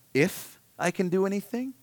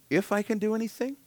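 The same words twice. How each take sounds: First: Incredulous echo. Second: A touch more disbelieving, pitched up; incredulous echo, higher. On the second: Preacher voicing Jesus echoing the doubting father, higher disbelief. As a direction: repeat the question higher and more amazed. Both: Retold or imitated. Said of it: "Jesus' response, you'll see, is".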